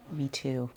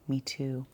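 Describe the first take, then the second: No difference in how they are said.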